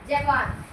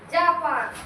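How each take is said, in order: First: The first syllable has a short reduced vowel. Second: The first syllable has a long 'aa' vowel. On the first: The speaker calls it right. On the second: The speaker calls it wrong.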